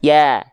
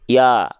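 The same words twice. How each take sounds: First: The vowel is open, with lips spread smiling. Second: The vowel is open, without a spread smile. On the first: The letter keeps its thin quality. The speaker calls it right. "Harusnya dilafalkan biar dia kadar tipisnya tetap terjaga sambil senyum" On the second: The letter loses its thin quality. The speaker calls it wrong. "Kalau dia tanpa senyum, maka pelafalannya seperti ini"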